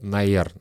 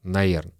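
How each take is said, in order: First: The word is squeezed into two short syllables. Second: The same.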